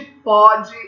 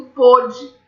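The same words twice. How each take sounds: First: Pode slowly, with an open ó. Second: Pôde with a closed o, like pô. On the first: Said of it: "pode é som aberto". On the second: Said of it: "pôde é som fechado". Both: Shown as a demonstration.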